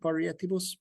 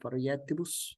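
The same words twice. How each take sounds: First: The i after the r is a full vowel. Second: The i after the r is a consonant. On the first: This is the usual pronunciation. "We would usually pronounce it" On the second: This is how it must be read for the meter here. "that consonantal I"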